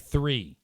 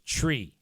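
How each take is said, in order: First: It begins with a soft 'th' sound. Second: It begins with a hard 't' sound.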